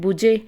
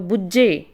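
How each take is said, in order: First: The middle consonant is short, not held. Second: The middle consonant is doubled and held longer. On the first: The speaker calls it wrong. "ਜੇ ਉੱਤੇ ਅਦਕ ਨਾ ਹੋਵੇ" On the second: The speaker calls it right. "ਉੱਤੇ ਅਦਕ ਪਾ ਦਿੱਤਾ ਤਾਂ ਉਹਦੀ ਜਿਹੜੀ ਆਵਾਜ਼ ਆ ਉਹ ਵੱਧ ਜਾਂਦੀ ਆ"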